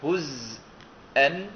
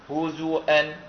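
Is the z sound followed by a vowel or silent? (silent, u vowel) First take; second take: silent; u vowel. First: The z is silent, with no vowel after it. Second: The z is followed by a short u vowel. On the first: This is one reciter's reading. "الإمام حمزة رحمه الله يقرأ" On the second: This is the other reciters' reading. "فالباقون يقرؤون"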